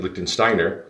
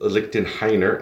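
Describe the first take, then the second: First: The middle part is said as 'stein'. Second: The middle part is said as 'hein'. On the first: The speaker calls it wrong. "I think we've been pronou- pronouncing it Liechtensteiner" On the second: The speaker calls it right. "but it's actually Lichtenheiner"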